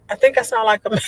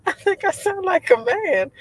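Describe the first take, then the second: First: Fast, laughing through the words; quick amused aside. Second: Much higher, squeaky take on the line; high playful restatement; mock high voice. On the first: Real, not acted. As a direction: giggle out the line. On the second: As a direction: pitch it way up to mock yourself.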